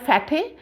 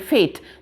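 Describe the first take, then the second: First: The final e is sounded as a second syllable. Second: The final e is silent, giving one syllable. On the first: The speaker calls it wrong. "It is not called fatty" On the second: The speaker calls it right. "It is called fat. Uh, sorry, fate"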